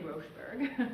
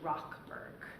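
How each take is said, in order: First: The first syllable does not end in a k sound. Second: The first syllable ends in a hard k sound. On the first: The speaker calls it wrong. "Don't say Rochberg" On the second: The speaker calls it right. "It is actually Rockberg, like R O C K"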